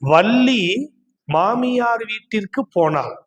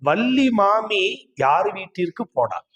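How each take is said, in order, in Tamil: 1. maamiyaar வார்த்தை பிரிக்காமல் சொல்லப்படுகிறது. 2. maami மற்றும் yaar இடையே பிரிவு இருக்கிறது.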